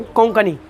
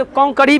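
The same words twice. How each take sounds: First: कोंकणी said "konkani", with a clear n; corrected कोंकणी. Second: कोंकणी said "konkari", with r for the n; mispronounced कोंकणी. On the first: Teacher correcting the slip, कोंकणी said as "konkani" with n. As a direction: give कोंकणी its n sound, "konkani". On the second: Teacher showing a possible slip in कोंकणी, said as "konkari". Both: Shown as a demonstration. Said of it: "लेकिन कोंकणी नहीं, कोंकणी".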